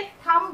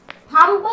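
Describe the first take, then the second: First: "थंब" ending on M, no B; "थंब" with its final B left silent. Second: "थंब" with an audible final B; "थंब" mispronounced with B sounded. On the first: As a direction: say "थंब" as thum. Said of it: "थंब बोलते हैं यहाँ बी". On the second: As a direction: say "थंब" as thum-b, releasing the B. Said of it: "नहीं बोलेंगे". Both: Shown as a demonstration.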